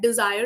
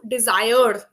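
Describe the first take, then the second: First: The R sound is light and barely touched. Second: The R sound is strong and rolled. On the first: The speaker calls it right. "Desire is fine" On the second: The speaker calls it wrong. "that's not required"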